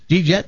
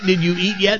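First: The words are squeezed into one short syllable. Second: Each of the four words is said separately. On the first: "it started with J-E-E-T" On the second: "I mean"

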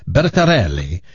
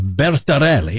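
First: The name is said in an Italian accent. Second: The name is said in a plain accent.

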